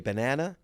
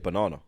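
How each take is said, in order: First: It is said with an American pronunciation. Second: It is said in the speaker's own accent. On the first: "Americans will say" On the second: "we'll say"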